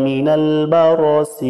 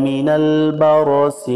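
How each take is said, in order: No difference in how they are said.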